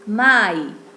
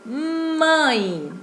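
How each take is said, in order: First: The vowel is oral, with no nasal sound. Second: The vowel is nasal, partly through the nose. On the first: "Caso a palavra mãe não tivesse o tio, ela ficaria mai" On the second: "é nasal, ou seja, será emitido parte pelo nariz e parte pela boca"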